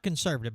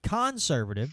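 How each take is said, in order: First: The first syllable is said plainly, unstressed. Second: The first syllable 'con' is strongly emphasized. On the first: The ordinary political label. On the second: They are running a con job on people. "but conservative, because they're running a con job on people"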